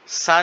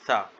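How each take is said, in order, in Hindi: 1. यह सादी फुफकार वाली 's' की आवाज़ से शुरू होता है। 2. यह नरम 'th' की आवाज़ से शुरू होता है। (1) "सा नहीं पढ़ेंगे" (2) "ज़ुबान की नोक को रखेंगे"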